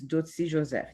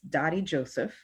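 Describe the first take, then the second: First: The name is pronounced the Haitian Creole way. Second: The name is pronounced the English way. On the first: This is the original form of the name. "the real way to pronounce my name is Dotsi Joseph. That's in Creole" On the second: This is the accepted form for English speakers. "if you speak English, it's Dottie Joseph"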